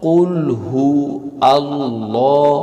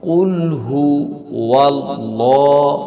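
First: কুল হু আল্লাহ with a glottal stop; wrong hamza break. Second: ওয়াল্লাহ joined with a w glide; correct waw link. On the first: Teacher showing hamza mistake. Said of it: "Hamza ব্যবহার করি". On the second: Teacher chanting the correct waw link. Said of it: "এটা শুদ্ধ হবে এভাবে". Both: Shown as a demonstration.

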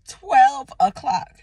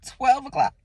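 First: Slow, loud, indignant "twelve o'clock"; stress on twelve. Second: "Twelve o'clock" echoed with a laugh; laughing repeat. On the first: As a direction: draw out "twelve" in disbelief. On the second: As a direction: laugh it off in disbelief. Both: Real, not acted.

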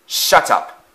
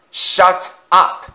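First: Barked. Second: Higher, louder bark; angry bark. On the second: Afton yelling at the wailing coaches, angry bark. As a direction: bark it back harder. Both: A narrator's reading. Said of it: "Afton barked back".

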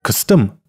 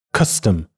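First: Custom wrongly stressed on the second syllable; cus-TOM, first syllable reduced to schwa; weak cus, stressed tom in custom; reversed stress. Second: Custom stressed on the first syllable; CUS-tom, with a weak schwa in tom. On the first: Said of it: "也就是轻重颠倒". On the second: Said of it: "只不过cus是重读音节". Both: Shown as a demonstration.

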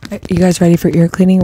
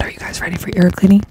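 First: Said in the usual way. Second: Fast ASMR whisper. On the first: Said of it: "repeat of whispered question". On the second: Real, not acted. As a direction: whisper the question to the listeners. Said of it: "same question, whispered take".

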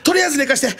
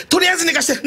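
First: High, strained plea to be left to sleep; imitating a distressed plea; pleading. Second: Even higher strained begging; imitating a rising desperate plea; more desperate plea. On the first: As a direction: beg in a raised voice. Partner begging to sleep. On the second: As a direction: push the plea up further.

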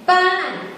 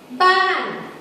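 First: Ban starts high and drops sharply; Thai falling tone. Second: Ban starts high and drops at the end; Thai falling tone. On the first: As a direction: begin Ban high and let it fall away. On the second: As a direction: say ban high, then let it fall. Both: Shown as a demonstration. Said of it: "drop at the end".

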